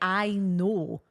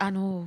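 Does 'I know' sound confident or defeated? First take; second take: confident; defeated. First: It sounds calm, assured and matter-of-fact. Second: It sounds resigned, deflated and defeated. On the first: The speaker is simply aware of the fact. The speaker calls it right. "not in a nasty way, but just saying I know, like, yeah, I'm aware of that, absolutely" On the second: The speaker feels worn down by the remark. The speaker calls it wrong. "I almost say it in a way of a bit of defeat"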